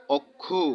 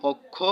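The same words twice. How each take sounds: First: অক্ষু ending on a u sound, okkhu; pronounced okkhu. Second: Said in the usual way. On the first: Shown as a demonstration. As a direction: finish অক্ষু on a short u. (শেষে উ-কার দিয়ে অক্ষু) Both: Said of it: "ও এর উচ্চারণ উকার হয়".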